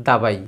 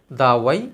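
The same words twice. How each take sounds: First: দাবাই with a plain b; Bengali b reading. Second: দাওয়াই with a round w; Arabic w sound. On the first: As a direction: say দাবাই as dabai. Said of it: "আরবি দাওয়াই আমরা বলছি". (দাবাই, ব দিয়ে বাংলা উচ্চারণ) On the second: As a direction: say দাওয়াই as dawai. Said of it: "যখন দাওয়াই লেখা হয় আমরা পড়ছি দাবাই". (দাওয়াই শব্দে আরবি ওয়াও উচ্চারণ) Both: Shown as a demonstration.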